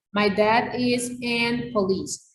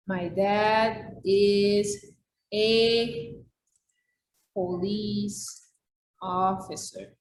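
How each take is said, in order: First: Teacher reading the student's sentence aloud, slowly and evenly; reading out a student error slowly; slow read of the wrong sentence. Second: Very slow, word by word, each word set apart; slow model sentence. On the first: Teacher reads a student's wrong sentence, slow and deliberate. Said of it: "El uso de este artículo es incorrecto". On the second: Teacher models the corrected sentence to students, very slow and deliberate. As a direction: dictate the correct sentence for the class. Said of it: "la forma de decir esto". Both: Shown as a demonstration.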